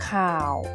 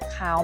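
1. เสียงคงระดับต่ำ 2. เสียงสูงขึ้น (1) "ไม่เอก" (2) "อักษรสูงเสียงจัตวา"

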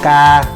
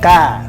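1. Cao độ giữ ngang và bằng phẳng. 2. Cao độ đi lên một chút. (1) "tiếng ngang" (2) "lên một chút"

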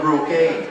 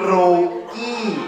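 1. พูดด้วยสำเนียงฝรั่ง ลงท้ายด้วย 'gay' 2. พูดด้วยสำเนียงไทย ลงท้ายด้วย 'gee' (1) "ฝรั่งก็รูเก้" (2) "ถ้าสำเนียงไทยก็รูกี้"

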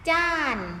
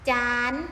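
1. พยางค์นี้ออกเสียงด้วยเสียงโท 2. พยางค์นี้ออกเสียงด้วยเสียงตรี (1) "รูปโทเสียงโท" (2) "รูปตรีเสียงตรี"

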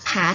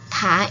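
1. พยางค์นี้มีเสียงเอก 2. พยางค์นี้มีเสียงจัตวา (1) "ผาเอก" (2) "เสียงจัตวา"

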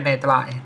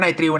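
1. พยางค์สุดท้ายออกเสียงว่า 'trai' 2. พยางค์สุดท้ายออกเสียงว่า 'tril' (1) "ต้องเป็นไนไตรด์นะครับ" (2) "อย่าอ่านว่าไนตริลนะ"

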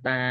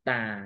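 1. พยางค์นี้มีเสียงกลาง 2. พยางค์นี้มีเสียงต่ำ

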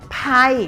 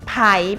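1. ระดับเสียงลงจากสูงไปต่ำ 2. ระดับเสียงขึ้นจากต่ำไปสูง (1) "ไผ่เป็นเสียงโท" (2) "ไผ่เป็นเสียงจัตวา"

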